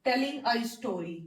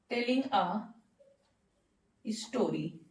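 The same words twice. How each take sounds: First: Said in the usual way. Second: Telling a ... then a long pause before स्टोरी, which is said lower and softer; dictation pauses. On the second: Shown as a demonstration. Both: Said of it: "कहानी सुनाना".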